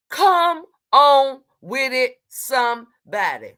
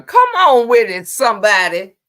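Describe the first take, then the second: First: Slow, stretched "Come on with it"; slow, sing-song "Come" stretched; drawn-out call. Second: Loud shout to the chat; loud "Come on with it" hype; hype call. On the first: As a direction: drag each word out slowly. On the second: Hypes up chat loudly. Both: Real, not acted.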